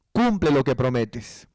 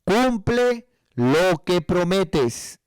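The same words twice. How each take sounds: First: Said in the usual way. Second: "Cumple lo que prometes" drawn out very slowly, each word weighed; slow emphatic quote. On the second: Shown as a demonstration. Preacher quoting scripture to the congregation, very slow and emphatic. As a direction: spell out the scripture slowly so it sinks in. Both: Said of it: "Y dice".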